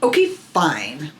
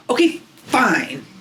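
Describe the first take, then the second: First: Sulky okay fine. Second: Higher, slow pouty "Okay, fine."; imitating sulky daughter. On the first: Retold or imitated. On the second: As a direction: play a toddler crossing her arms, sulking. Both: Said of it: "she does it like this".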